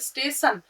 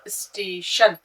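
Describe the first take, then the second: First: The last syllable starts with an s sound. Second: The last syllable starts with an sh sound. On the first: The speaker calls it wrong. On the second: The speaker calls it right.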